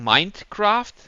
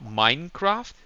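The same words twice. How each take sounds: First: A D sound is said before 'craft'. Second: No D sound is said before 'craft'. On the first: The name is taken to come from the mind. The speaker calls it wrong. "many people think that the game is called Mindcraft" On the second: The name is taken to come from mining. The speaker calls it right. "The game is Minecraft, as in mining"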